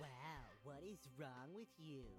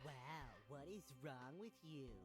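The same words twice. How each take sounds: First: It is said in a nasal voice. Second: The same.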